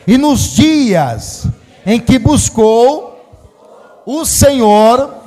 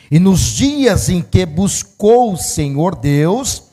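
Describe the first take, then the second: First: It is read loudly and forcefully. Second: It is read at normal volume.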